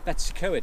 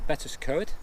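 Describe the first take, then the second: First: The name is said with an anglicized pronunciation. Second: The name is said with a Welsh pronunciation. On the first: The speaker calls it wrong. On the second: The speaker calls it right.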